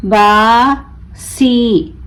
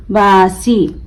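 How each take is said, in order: First: बासी very slow, long बा, pause, long सी; broken into syllables. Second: Said in the usual way. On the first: Shown as a demonstration. Teacher breaking the word for learners, बा... सी stretched apart. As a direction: draw out बासी as two separate syllables. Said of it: "तोड़ तोड़ कर पढ़ूंगी". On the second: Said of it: "मिलाकर पढ़ें".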